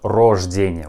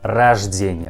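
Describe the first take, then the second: First: The first vowel sounds like a full O. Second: The first vowel sounds like A. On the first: The speaker calls it wrong. "not рождение" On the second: The speaker calls it right. "we also pronounce this letter like A"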